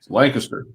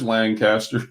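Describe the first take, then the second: First: It is said the local way. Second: It is said the out-of-town way. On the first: The speaker sounds like a local. The speaker calls it right. "It's Lancaster" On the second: The speaker is not from the area. The speaker calls it wrong. "I get yelled at when I pronounce it like that"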